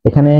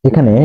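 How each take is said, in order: The two takes are said the same way.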